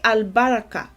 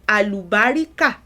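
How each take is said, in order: First: It is said with four syllables, al-ba-ra-ka. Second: It is said with five syllables, a-lu-ba-ri-ka. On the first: It keeps the word's original Arabic form. The speaker calls it right. "If you say albaraka properly" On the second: It treats the word as native Yoruba. The speaker calls it wrong. "pronouncing it like a Yoruba word"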